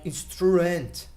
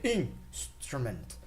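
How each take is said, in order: First: The stress falls on a later syllable. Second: The stress falls on the first syllable. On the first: The speaker calls it wrong. "you don't say like instrument or anything like this" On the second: The speaker calls it right. "You say instrument. So you go, uh, let's say loud, and then you go lower"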